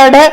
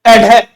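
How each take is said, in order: First: "अडे" as a-ṛe, with no puff of air; teacher's demo of "अडे" with a plain retroflex flap; unaspirated ड़. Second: "एडे" as a-ṛhe, flap with a puff of air; teacher's demo of "एडे" with an aspirated retroflex flap. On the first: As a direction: flick the tongue for the ḍ in "अडे". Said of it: "इसका उच्चारण तो करूंगा मैं". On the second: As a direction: flick the tongue and breathe out on "एडे". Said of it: "और इसका उच्चारण करूंगा मैं". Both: Shown as a demonstration.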